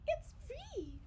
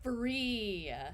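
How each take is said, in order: First: It is said in a Minnie Mouse voice. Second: It is said in a normal voice.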